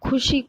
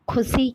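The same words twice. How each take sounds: First: The middle consonant is a 'sh' sound. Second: The middle consonant is an 's' sound. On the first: The speaker calls it right. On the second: The speaker calls it wrong.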